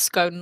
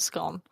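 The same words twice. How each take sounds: First: The vowel rhymes with stone. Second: The vowel rhymes with gone. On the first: The speaker calls it right. "nouns ending in e are pronounced own, like stone" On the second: The speaker calls it wrong. "not scone"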